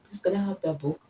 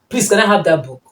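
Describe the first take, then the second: First: It is said softly and politely. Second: It is said loudly and commandingly. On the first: The speaker is making a courteous request. The speaker calls it right. "You can say" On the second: The speaker is giving a rude order. The speaker calls it wrong. "Not like"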